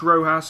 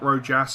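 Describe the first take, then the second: First: The J is said like an H sound. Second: The J is said like an English J. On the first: The speaker calls it right. "I believe it's Rojas ... The J is actually pronounced as a H" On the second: The speaker calls it wrong. "and not Rojas"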